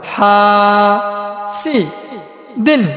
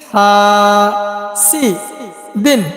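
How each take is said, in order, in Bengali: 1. শব্দাংশগুলো বিরতি দিয়ে আলাদা করে বলা হয়। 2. শব্দাংশগুলো বিরতি দিয়ে আলাদা করে বলা হয়।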